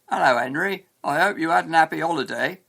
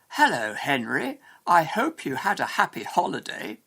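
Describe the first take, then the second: First: The H sounds are dropped. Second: The H sounds are clearly pronounced. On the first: The speaker has a more common accent. "Someone speaking with a more common accent" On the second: The speaker talks carefully. "A careful speaker"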